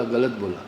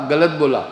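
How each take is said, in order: First: Lower, softer parroted reply; imitating little brother's echo. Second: Brisk, firm correcting tone; retold correction. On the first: Little brother parroting elder brother, low soft echo. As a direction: innocently repeat it back, toned down. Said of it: "तो वो भी बोला". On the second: Elder brother correcting little brother, firm correction. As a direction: point out the mistake firmly.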